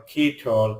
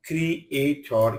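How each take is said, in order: First: Said in the usual way. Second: "creator" broken into three syllables; "creator" pulled apart for learners; split syllables. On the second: Shown as a demonstration. Word split by syllable, then whole.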